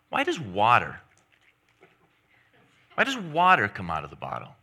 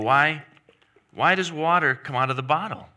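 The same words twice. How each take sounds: First: The word water carries the main stress. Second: The word water is not specially stressed. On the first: It asks why it is water that comes out. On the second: It asks what made the water come out.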